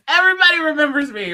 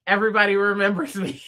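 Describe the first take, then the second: First: Higher, louder and faster; proud, punchier second take; excited repeat. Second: Said in the usual way. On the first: Shown as a demonstration.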